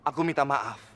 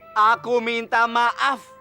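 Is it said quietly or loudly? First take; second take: quietly; loudly. First: It is said quietly. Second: It is said loudly.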